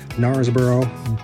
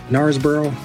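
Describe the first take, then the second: First: It is said in an American accent. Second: It is said in a mixed British-American accent. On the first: "I'm going to say it like we would say it in America" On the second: "maybe a combination between the British and maybe the American English version"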